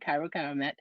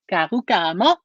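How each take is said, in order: First: The name ends with an 'et' sound. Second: The name ends with an 'ah' sound. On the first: The speaker calls it wrong. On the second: The speaker calls it right.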